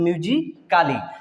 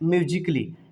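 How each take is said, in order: First: A full 'a' vowel is heard before 'ly'. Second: No vowel is heard between the 'c' and 'ly'. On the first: The speaker calls it wrong. "अगर ए को pronounce करते तो म्यूजिकाली हो जाता है" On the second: The speaker calls it right. "यहाँ पे ए को हम नहीं प्रोनाउंस कर रहे हैं"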